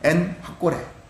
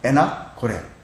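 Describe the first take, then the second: First: The n stays apart, followed by h. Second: The n runs into the next syllable. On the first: The speaker calls it right. "엔학고레라고 해야 되는데" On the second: The speaker calls it wrong. "우리는 보통 에낙고레 이렇게 발음하기"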